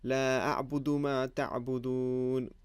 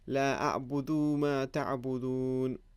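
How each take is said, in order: First: The vowel after the d is kept short. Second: The vowel after the d is stretched long. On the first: The speaker calls it right. "It should have been" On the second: The speaker calls it wrong. "it would be incorrect for me to say ... I basically stretched the dal"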